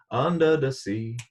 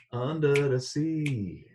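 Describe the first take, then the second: First: Singing. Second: Sung slowly with falling end; slow drawn-out singing. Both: Pretend. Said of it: "I know I have to work on my Jamaican accent".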